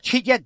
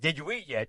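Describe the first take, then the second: First: The words are squeezed together into two syllables. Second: Each word is said fully and separately.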